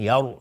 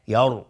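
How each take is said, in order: First: یر said thinly as "yer"; wrong vowel. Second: یر said "yar", full and heavy; louder یر with an open a and thick r; correct heavy ra. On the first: Teacher shows what we don't say, thin mispronounced یر. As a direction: say یر with a light, fronted e and thin r. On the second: Teacher corrects the reading, heavy emphatic یر. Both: Shown as a demonstration. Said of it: "نمیگیم یر".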